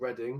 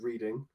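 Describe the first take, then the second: First: The first vowel sounds like in 'red'. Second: The first vowel sounds like in 'reed'. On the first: It names the place in England. "a place in England called Reading" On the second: It is how the speaker used to say the name. "I used to call it reading"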